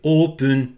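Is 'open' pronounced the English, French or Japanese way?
Japanese. It is said with Japanese sounds, like oopun. The speaker calls it right. "le son le plus proche de open en anglais, quand on le, le met en japonais, c'est open"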